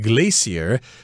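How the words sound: It is said the British way.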